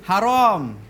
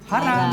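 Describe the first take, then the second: First: It is said with Arabic pronunciation. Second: It is said with Indonesian pronunciation. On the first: "Bahasa Arabnya" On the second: "kita bahasa Indonesia haram"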